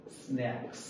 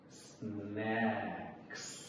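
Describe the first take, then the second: First: Said in the usual way. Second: স্ন্যাক্স drawn out very slowly and softly; slow pronunciation demo. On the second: Shown as a demonstration. Teacher modelling a word for learners, স্ন্যাক্স slowly stretched out. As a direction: stretch স্ন্যাক্স sound by sound, long s and vowel. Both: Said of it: "উচ্চারণ শিখবো".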